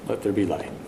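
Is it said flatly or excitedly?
flatly. It is said flatly, without excitement.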